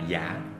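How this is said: The word is said with a Southern accent.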